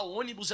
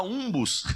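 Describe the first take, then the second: First: Said in the usual way. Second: "umbus", ônibus squashed into two syllables; childish slip "umbus" for ônibus; toddler mispronunciation. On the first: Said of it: "em vez de falar ônibus". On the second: Retold or imitated. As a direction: say "umbus", dropping the middle of ônibus. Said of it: "ela fala umbus".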